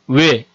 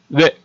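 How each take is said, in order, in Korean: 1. 입술 모양이 바뀌는 이중모음이다. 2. 입술 모양이 변하지 않는 단모음 하나로 나는 소리다. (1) "외를 이중모음으로 발음을 해보겠습니다" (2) "외를 선생님이 단모음으로 발음을 한번 하겠습니다"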